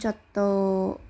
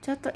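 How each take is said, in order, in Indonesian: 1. Nada turun di akhir kata. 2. Nada tidak turun di akhir kata. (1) "intonasi menurun" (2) "untuk tunggu sebentar tapi bentuk positif"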